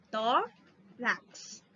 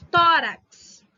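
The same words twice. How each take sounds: First: "tórax" broken into TÓ, pause, rax; TÓ set apart from rax in "tórax"; split into syllables. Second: Said in the usual way. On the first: Shown as a demonstration. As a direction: separate the two syllables of "tórax". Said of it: "Não é o rax, é o tó". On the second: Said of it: "é o tó".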